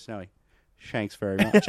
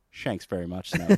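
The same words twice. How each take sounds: First: Called-out pun. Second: Cheeky pun, half laughing. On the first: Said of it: "you yell it out over the bar". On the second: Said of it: "raises his eyebrows and just gives him a". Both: Retold or imitated.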